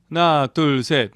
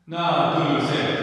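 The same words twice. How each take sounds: First: The voice is completely dry with no reverb. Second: Only the reverberated sound of the voice is heard. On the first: "리버브가 하나도 안 걸려 있죠" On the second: "리버브만 소리가 나게 돼 있어요"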